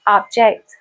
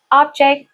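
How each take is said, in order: First: "object" as ob-JECT, weight at the end; verb-style "object", stressed on -JECT; stress on second syllable. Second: "object" as OB-ject, weight at the front; noun-style "object", stressed on OB-; stress on first syllable. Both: Shown as a demonstration. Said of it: "can be pronounced in different ways".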